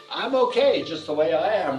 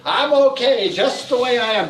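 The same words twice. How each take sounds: First: Said in the usual way. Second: Louder, higher, emphatic; affirmation called out. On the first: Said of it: "the next one is". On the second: Shown as a demonstration. Teacher leads the group affirmation, loud emphatic call. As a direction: proclaim it for everyone to repeat.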